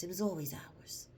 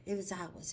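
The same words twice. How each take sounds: First: Hushed, breathy whisper. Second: Said in the usual way. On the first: Real, not acted. Confiding to viewers about their culture in a whisper. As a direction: let it drop to a whisper. Repeats claim, then whispers it.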